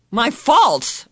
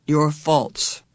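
First: High, louder startled "My faults?"; cried out. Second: Said in the usual way. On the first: A narrator's reading. Meg crying out in surprise at her gift. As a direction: blurt "My faults?" in disbelief. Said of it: "Meg cried". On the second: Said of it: "Missus Whatsit repeats calmly".

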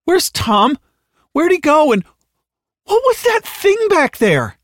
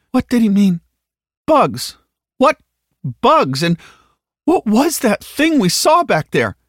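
First: Very high, near-hysterical demands; frantic questioning. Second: High, loud, frightened demands; panicked questioning. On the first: Halliday squirming in the back seat, frantic. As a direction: climb into shrill panic, slowing on the last question. Frightened passenger growing more frantic. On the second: Halliday roused from weepy fugue, asking in alarm. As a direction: panic rising with each question. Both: Acted.

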